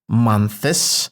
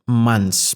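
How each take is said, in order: First: The sounds are overstressed and heavily articulated. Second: The sounds are said smoothly and fluidly. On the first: The speaker calls it wrong. "I'm not saying months" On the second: The speaker calls it right. "I'm saying just months because it's easy, it's fluid, it's buttery"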